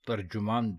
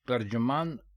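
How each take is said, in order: First: The second syllable has a u vowel: tarjuman. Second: The second syllable has an a vowel: tarjaman. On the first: The speaker calls it right. "तर्जुमान दुरुस्त है" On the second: The speaker calls it wrong. "तर्जमान गलत है"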